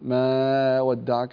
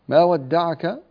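First: The vowel is held for an extra-long time. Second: The vowel is held for a normal length. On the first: The speaker calls it wrong. "لا تمدينه أكثر، لا تقولي ما ودعك" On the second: The speaker calls it right. "مد طبيعي"

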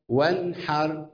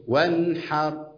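The two takes are said the same way.

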